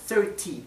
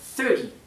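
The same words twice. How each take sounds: First: The middle T is pronounced clearly. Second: The middle T is soft, almost like D. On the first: "si quieren pronunciar la T" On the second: "treinta se dice treinta"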